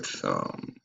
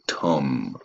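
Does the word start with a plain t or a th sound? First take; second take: th sound; plain t. First: The word starts with a breathy th sound. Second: The word starts with a plain t sound.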